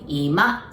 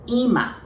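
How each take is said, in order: First: The pitch is low first, then rises. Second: The pitch is high first, then falls. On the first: It means living room. "it goes up a little. So accent goes on the ma part" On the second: It means now. "it goes down. The accent goes on the first part"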